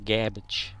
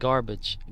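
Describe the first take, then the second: First: The word is said with no R sound. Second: The word is said with an R sound. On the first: "Like saying cabbage, but saying a G in front of it" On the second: "Not garbage"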